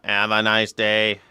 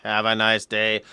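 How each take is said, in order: The two takes are said the same way.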